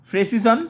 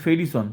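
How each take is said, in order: First: ফ্রেসিসন opening on "fre", ending on a rise; contrast pronunciation. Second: ফেরিসন as "fe-ri-son", lower and falling; contrast pronunciation. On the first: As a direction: join f and r in ফ্রেসিসন, lift the end. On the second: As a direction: part f and r with a vowel in ফেরিসন. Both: Shown as a demonstration. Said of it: "উচ্চারণটা কিন্তু মনে হবে সাধারণত একই".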